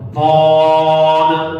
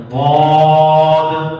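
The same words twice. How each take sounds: No difference in how they are said.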